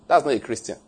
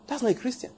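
First: Said in the usual way. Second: Softer and higher, leaning on "not"; quiet, higher repeat. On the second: Shown as a demonstration. Preacher repeating a verdict to the congregation, hushed.

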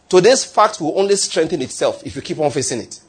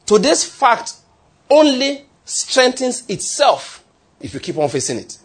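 First: Said in the usual way. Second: "Today's fact only strengthens itself" pitched high, slowly, with pauses; emphatic restatement. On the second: Real, not acted. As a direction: drive home "only strengthens itself", high and drawn out, then let the end drop.

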